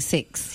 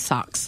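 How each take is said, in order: First: The vowel is a plain short 'i' sound. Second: The vowel is centralised, sounding close to 'sucks'. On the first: "they're only saying six" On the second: "if I ever meet a New Zealander again and they say sucks"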